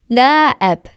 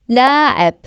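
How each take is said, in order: The two takes are said the same way.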